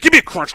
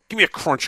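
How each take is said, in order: First: It is said loudly and forcefully. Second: It is said more softly and gently. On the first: The speaker calls it wrong. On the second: The speaker calls it right.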